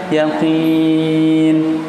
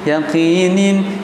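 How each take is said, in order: First: The word ends cut short at the n. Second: The word ends with a full -in ending. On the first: The reader stops at the end of the verse. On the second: The reading continues without a stop.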